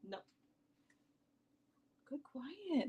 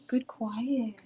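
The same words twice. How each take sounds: First: Hushed praise for the dog, whispered and soft. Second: Said in the usual way. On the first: Real, not acted. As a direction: whisper it to calm a barking dog. Hushing the barking dog.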